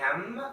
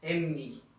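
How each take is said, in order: First: The letter name is short and clipped. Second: The letter name is drawn out longer. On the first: "in English we say M" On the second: "It's just a little bit longer when you pronounce it"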